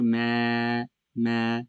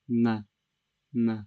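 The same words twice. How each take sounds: First: The voice sounds tense and strained. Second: The voice sounds natural and relaxed. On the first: The speaker calls it wrong. "that's strain form" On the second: The speaker calls it right. "keep your mouth natural in its natural shape"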